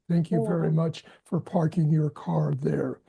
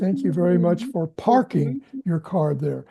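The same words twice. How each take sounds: First: The words are stressed evenly, parking not emphasized. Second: The word parking carries strong emphasis. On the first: The speaker calls it right. "So all, all even" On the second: The speaker calls it wrong. "only thing I would say is on the emphasis on the word parking. You said"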